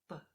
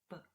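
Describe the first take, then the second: The two takes are said the same way.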